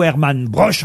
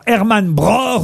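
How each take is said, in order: First: Broch ending in a French sh. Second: Broch ending in a throaty r-like German ch; guttural ch. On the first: Host giving both versions of the author's name, sh ending on Broch. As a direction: say Broch as "brosh", like the brooch. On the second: Host giving both versions of the author's name, guttural ch on Broch. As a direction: say Broch as "bror", from the back of the throat. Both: Shown as a demonstration. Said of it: "si on prononce Bror ou Broche".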